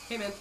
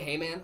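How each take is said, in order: First: It is said in a put-on impression voice. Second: It is said in a normal voice.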